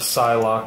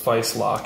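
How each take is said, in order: First: The name begins with an S sound. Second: The name begins with an F sound.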